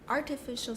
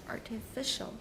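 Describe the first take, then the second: First: The stress is on the first syllable. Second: The stress is on the third syllable. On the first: "it's on the first" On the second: "第三个"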